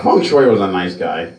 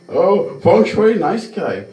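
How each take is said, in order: First: Said in the usual way. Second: Mock third-person self-praise, pitched high; high-pitched mimicry of an absent acquaintance; Feng Shui. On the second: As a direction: put on a high caricature voice, talking about yourself. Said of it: "speaks to themselves in a third per".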